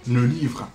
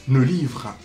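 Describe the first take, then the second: No difference in how they are said.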